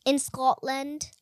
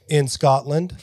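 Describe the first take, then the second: First: Slow put-on Scottish accent. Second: Louder stab at a Scottish accent; attempted Scottish accent. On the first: Kid showing off a Scottish accent, slow put-on Scottish. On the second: Shown as a demonstration. Host copying the kid's accent, badly faked Scottish. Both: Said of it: "I can do a Scottish".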